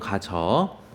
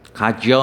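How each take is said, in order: First: The second syllable has a plain vowel, no glide. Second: The second syllable has a y-glide before the vowel. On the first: The speaker calls it right. "단모음으로만 발음합니다" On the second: The speaker calls it wrong. "아니고"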